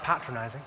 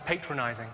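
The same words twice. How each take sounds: First: It is said with a British pronunciation. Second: It is said with an American pronunciation. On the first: The speaker calls it right. "I think you'll find that's pronounced patronizing" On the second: The speaker calls it wrong. "said he thought I was patronizing"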